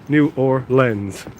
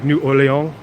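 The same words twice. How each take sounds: First: The name ends like the word 'lens'. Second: The name is said in a French style. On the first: This is how locals say it. "if you want to talk like a local" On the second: This follows the original French. "like the French version"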